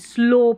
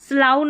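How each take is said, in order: First: The vowel sounds like 'oh' in go. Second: The vowel sounds like 'ow' in cow. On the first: The speaker calls it right. "स्लो पढ़ेंगे" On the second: The speaker calls it wrong. "यहाँ पर स्लाउ नहीं"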